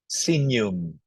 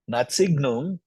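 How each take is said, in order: First: The middle has an NY sound. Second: The middle has a hard G sound. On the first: The speaker calls it right. "because G and N pronounces N" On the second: The speaker calls it wrong.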